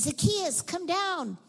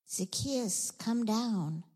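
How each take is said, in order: First: High, loud call up into a tree. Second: Measured, understated summons; gentle call. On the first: Jesus calling the man down from the tree, calling out. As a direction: call him down from above. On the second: Jesus reaching the tax collector's heart, gently calling. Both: Acted.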